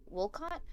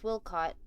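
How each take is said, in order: First: "Wilcott" rising at the end; questioning repeat. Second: Said in the usual way. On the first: Real, not acted. Player unsure of sheriff's name, "Wilcott" as rising question.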